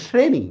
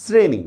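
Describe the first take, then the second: First: শ্রেণী with a hushing "sh" at the start; spelling pronunciation. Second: শ্রেণী with a plain hissed "s"; actual pronunciation. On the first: Teacher shows students the spelt sound, শ্রেণী as "shreni". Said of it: "হিসাব মতে এটার উচ্চারণ হওয়া দরকার ছিল". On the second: Teacher shows how it is really said, শ্রেণী as "sreni". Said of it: "তা আমরা উচ্চারণ করতেছি কি?". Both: Shown as a demonstration.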